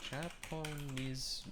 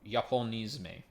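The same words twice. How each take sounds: First: Slow, soft sounding out of Japonisme as "aponiz"; careful try. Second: Japonisme said the French way, "zhapo-NEEZ-meh"; French-style pronunciation. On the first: Real, not acted. Puzzling over a new word, slow and quiet. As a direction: say Japonisme slowly, quietly, unsure. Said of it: "I've never seen that word before". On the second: Shown as a demonstration. Streamer tries Japonisme, lightly French. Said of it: "I'm not saying that, uh, with a French accent".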